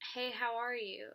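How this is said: It sounds sincerely concerned and caring.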